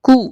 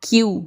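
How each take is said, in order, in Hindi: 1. इस अक्षर में कोई ध्वनि नहीं है: koo। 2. इस अक्षर में y की ध्वनि है: kyoo। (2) "नॉट क्यू"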